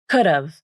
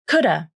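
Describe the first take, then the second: First: It ends with a v sound. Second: It ends with a weak uh vowel. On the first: "Could've with the final V consonant" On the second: "coulda without the final V consonant"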